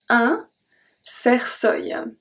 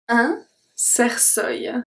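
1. De tweede C klinkt als een S. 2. De tweede C klinkt als een S.

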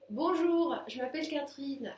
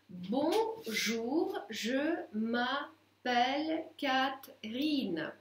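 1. Произносится плавно, в обычном разговорном темпе. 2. Произносится медленно, разбито по слогам. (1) "теперь нормально" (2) "давайте с вами попробуем вместе по слогам"

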